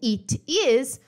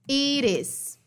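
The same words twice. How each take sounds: First: The t is a clear, separate t sound. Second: The t becomes a quick r-like flap.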